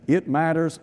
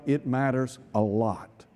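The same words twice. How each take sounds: First: Said in the usual way. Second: It matters a lot, drawn out slowly and softer; emphatic, slow and hushed. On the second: Shown as a demonstration. Preacher driving home to the congregation that it matters. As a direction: lean down hard on "it matters a lot", slow and low. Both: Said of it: "and let me tell you what".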